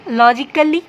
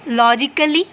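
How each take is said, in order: Both takes have the same delivery.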